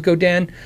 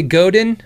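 First: "Go Dan" with a full DAN ending; correct pronunciation. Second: "Godin" run together with a weak last syllable, GOH-din; American pronunciation. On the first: Streamer reminding himself, "Go Dan" with a full second syllable. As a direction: say "Go Dan" as two clear syllables, go-DAN. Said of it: "'cause it's Go Dan". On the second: Streamer showing viewers his habit, "Godin" said Americanized as GOH-din. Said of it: "I'm American, so we say". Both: Shown as a demonstration.

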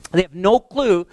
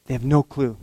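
First: Louder, higher insistent restatement; emphatic repeat. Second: Said in the usual way. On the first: Shown as a demonstration. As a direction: repeat "They have no clue" higher and louder.

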